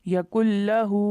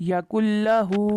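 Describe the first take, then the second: No difference in how they are said.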